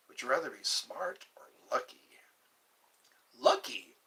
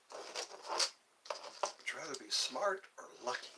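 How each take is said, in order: First: Hushed whispered question; secretive whisper to the chat. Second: Slow breathy hush, drawn out; slow secretive whisper. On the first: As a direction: lean in and whisper it. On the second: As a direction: whisper it slowly to the viewers. Repeated whispered question, slower. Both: Acted.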